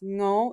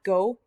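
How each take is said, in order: First: It starts with a soft nasal ng sound. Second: It starts with a hard g sound. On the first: The speaker calls it right. "almost like a like sing" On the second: The speaker calls it wrong. "it's not a hard g sound. It's not go"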